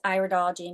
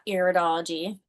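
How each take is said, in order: First: The first syllable sounds like 'eye'. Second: The first syllable sounds like 'ih'. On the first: The speaker calls it right. "it is pronounced like eyes" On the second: The speaker calls it wrong.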